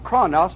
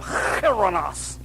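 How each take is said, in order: First: The word begins with a plain hard k sound. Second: The word begins with a rough throaty rasp. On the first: The speaker calls it wrong. "he won't pronounce it chronos" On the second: The speaker calls it right. "that H sound. Again, like you're throwing up"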